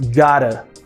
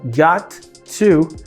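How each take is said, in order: First: The middle T is a quick flap. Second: The middle T is a clear t sound.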